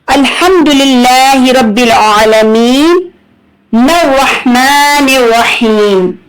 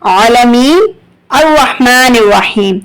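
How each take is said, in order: First: Aalameen runs straight into arrahmaan without pause. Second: There is a pause after aalameen.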